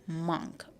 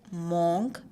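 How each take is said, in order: First: The vowel is an open 'ah' sound. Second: The vowel is a rounded 'o' sound. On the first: The speaker calls it right. "it is monk" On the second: The speaker calls it wrong. "It is not monk"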